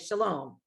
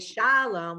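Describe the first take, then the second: First: The stress is on the second syllable. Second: The stress is on the first syllable. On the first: The speaker calls it right. "the second syllable has the accent" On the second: The speaker calls it wrong. "we don't say shalom"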